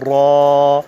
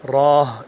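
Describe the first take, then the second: First: The long vowel ends cleanly with nothing added. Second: The long vowel ends with an h sound. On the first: The speaker calls it right. "यानी हम पढ़ेंगे इसको अलिफ लाम रा" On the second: The speaker calls it wrong. "अलिफ के बाद हा भी नहीं लेकर आएंगे, राह राह इस तरह भी नहीं पढ़ेंगे"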